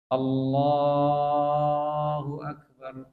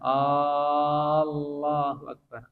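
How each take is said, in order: First: The 'la' vowel in Allah is drawn out. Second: The opening vowel of Allah is drawn out. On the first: The meaning stays the same. "Memanjangkan Allah itu enggak merubah arti" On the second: It becomes a question whether God is great. "Yang merubah arti jika memanjangkan hamzahnya"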